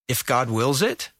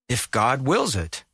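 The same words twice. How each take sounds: First: The voice rises at the end like a question. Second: The voice falls at the end like a statement.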